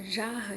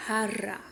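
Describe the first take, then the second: First: Said in the usual way. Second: "jarra" with a Spanish throaty j and tapped r, ha-ra; Spanish pronunciation. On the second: Shown as a demonstration. Teacher contrasting the Spanish "jarra", rasped h, tapped r. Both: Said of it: "só que se pronuncia".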